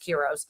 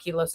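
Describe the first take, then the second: First: The middle consonant is an R sound. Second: The middle consonant is an L sound. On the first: The speaker calls it right. "it's Kiros" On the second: The speaker calls it wrong. "I keep almost saying Kilos. It's not Kilos"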